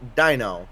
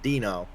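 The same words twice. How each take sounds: First: The first vowel sounds like 'dye'. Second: The first vowel sounds like 'dee'. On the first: The speaker calls it right. "L F T [name]" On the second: The speaker calls it wrong. "not [name]. ... He's not a fan of [name]"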